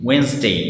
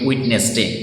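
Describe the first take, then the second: First: The word is said with two syllables. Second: The word is said with three syllables. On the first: The speaker calls it right. "Right প্রনাউন্সিয়েশনটা হচ্ছে ওয়েন্সডে" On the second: The speaker calls it wrong. "আমরা বলি উইটনেস ডে"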